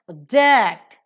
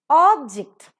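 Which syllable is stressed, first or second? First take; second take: second; first. First: The stress is on the second syllable. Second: The stress is on the first syllable. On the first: It is used as a verb. "object if it is a verb" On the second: It is used as a noun. "object if it is a noun"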